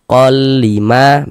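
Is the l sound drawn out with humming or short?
short. The l is short with no nasal hum. The speaker calls it right. "pendek saja"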